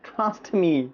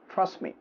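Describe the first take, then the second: First: The t at the end of trust is pronounced. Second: The t at the end of trust is dropped. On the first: The speaker calls it wrong. "এত কষ্ট করে ট্রাস্ট করার দরকার নেই" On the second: The speaker calls it right. "Simply trust me"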